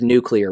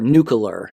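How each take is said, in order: First: The ending is said as 'nuclear'. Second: The ending is said as 'nucular'. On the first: The speaker calls it right. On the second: The speaker calls it wrong.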